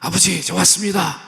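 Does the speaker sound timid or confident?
confident. It is said boldly and confidently.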